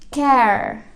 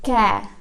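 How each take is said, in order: First: It ends with a clear r sound. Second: It ends without an r sound. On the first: "kalau untuk yang American, R-nya dijelaskan" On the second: "For British, you may say care. R-nya tak usah dibaca"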